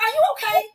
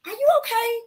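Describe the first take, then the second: First: High "Are you okay?" with the peak on "you" and a falling end; gentle concerned question. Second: Gentle concerned question. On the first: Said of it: "I'm like". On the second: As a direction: ask "Are you okay?" sweetly and much higher. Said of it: "I was like". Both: Retold or imitated.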